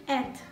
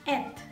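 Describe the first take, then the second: No difference in how they are said.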